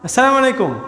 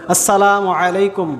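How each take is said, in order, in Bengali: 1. সালামটি জড়িয়ে বলা হয়েছে, কিছু ধ্বনি গিলে ফেলা হয়েছে। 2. সালামটি স্পষ্টভাবে বলা হয়েছে, প্রতিটি ধ্বনি আলাদাভাবে শোনা যাচ্ছে। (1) "এগুলো এরকম, এটা কোনো সালাম নয়" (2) "স্পষ্ট উচ্চারণ করতে হবে"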